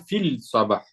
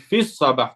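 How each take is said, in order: First: A clear l is heard before sabah. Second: The l blends into the s of sabah. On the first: The speaker calls it wrong. "Tu dis pas fil Sabah" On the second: The speaker calls it right. "Tu dis fils Sabah"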